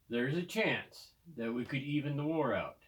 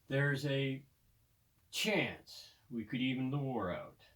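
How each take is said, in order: First: It flows without a pause before chance. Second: There is a pause before chance.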